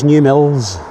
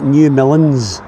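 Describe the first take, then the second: First: The second word has one syllable. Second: The second word has two syllables. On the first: The speaker calls it right. "but I believe it's New Mills" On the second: The speaker calls it wrong. "I would be inclined to pronounce that New Millins"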